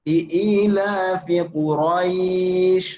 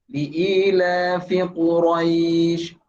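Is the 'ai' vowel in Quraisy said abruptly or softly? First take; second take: abruptly; softly. First: The 'ai' vowel is cut short and abrupt. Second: The 'ai' vowel is drawn out softly and gently. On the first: The speaker calls it wrong. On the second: The speaker calls it right. "Lembut ya"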